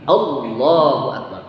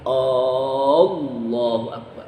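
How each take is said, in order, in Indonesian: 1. Semua vokal tetap dibaca pendek seperti biasa. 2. Vokal pertama 'A' dibaca panjang. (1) "Jadi Allahu akbar" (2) "A-nya panjang. Enggak boleh"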